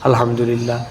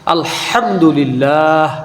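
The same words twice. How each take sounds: First: The h is a light, plain h sound. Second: The h is a strong, throaty h sound. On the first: All crushing and ruin is for God. The speaker calls it wrong. "হায়ে হাওয়াজের সাথে" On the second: All praise is for God. The speaker calls it right. "হায় হুত্তির সাথে আলহামদুলিল্লাহ"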